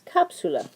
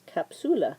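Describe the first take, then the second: First: The stress falls before the second-to-last syllable. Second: The stress is on the second-to-last syllable. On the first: The speaker calls it right. "It's capsula, like a capsule" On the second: The speaker calls it wrong. "we would say this is the vowel, second to last"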